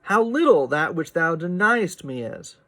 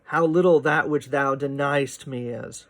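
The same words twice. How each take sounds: First: "deniest" squeezed to two syllables; pron: "deniest" elided. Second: "deniest" said as two quick syllables, den-yest; pron: "deniest" elided. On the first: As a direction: mush "deniest" together. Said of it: "elision that's sort of suggested in deniest". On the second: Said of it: "mush that together". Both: Shown as a demonstration.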